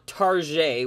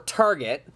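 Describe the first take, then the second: First: It is said with a French-style ending. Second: It is said the plain English way.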